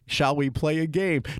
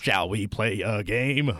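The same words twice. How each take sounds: First: It is said in his normal speaking voice. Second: It is said in a put-on computer voice.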